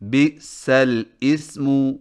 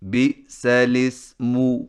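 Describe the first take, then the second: First: The words are split with a fresh vowel onset. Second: The words run together with no break. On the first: The speaker calls it wrong. "बिल्कुल गलत है" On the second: The speaker calls it right. "लाम को ज़ेर देकर सीन के साथ मिलाकर पढ़ें"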